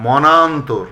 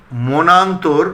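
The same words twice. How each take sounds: First: মনান্তর said as "mɔnantor"; correct open vowel. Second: মনান্তর said as "monantor"; closed "mo" opening মনান্তর; rejected close o. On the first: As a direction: say মনান্তর with an open aw, "maw-nan-tor". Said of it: "মনান্তর বলি না". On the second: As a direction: say মনান্তর with a rounded first o, "mo-nan-tor". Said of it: "বলি না". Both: Shown as a demonstration.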